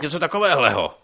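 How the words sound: The voice is harsh and angry. The speaker is annoyed. "To jsem byl naštvaný třeba"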